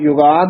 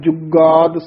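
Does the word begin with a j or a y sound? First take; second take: y; j. First: The word begins with a y sound. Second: The word begins with a j sound. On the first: The speaker calls it wrong. "ਯੁਗਾਦ ਨਹੀਂ ਕਹਿ ਦੇਣਾ" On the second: The speaker calls it right. "ਜੱਜਾ ਸ਼ੁੱਧ ਬੋਲਣਾ"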